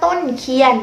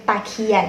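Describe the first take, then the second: First: The first syllable is a full heavy syllable. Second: The first syllable is a short light syllable. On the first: This is the older form of the word. "เมื่อก่อนเรียกว่าต้นเคียน" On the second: This is the current form of the word. "ให้เป็นเสียงเบาเป็นตะเคียน"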